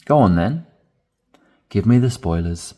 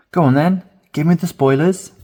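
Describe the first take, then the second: First: Said in the usual way. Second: Much higher and louder, begging to hear; eager pleading. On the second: Shown as a demonstration. Friend eagerly begging for spoilers, high and loud. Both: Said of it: "this final expression down the bottom".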